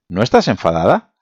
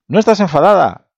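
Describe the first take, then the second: First: It sounds like a plain, neutral question. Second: It sounds surprised, joyful and astonished.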